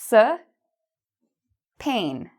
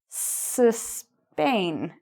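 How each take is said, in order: First: The s is split off by a pause. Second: The word is said quickly without a break. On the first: "say those two words" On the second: "bring it together and say it a little faster"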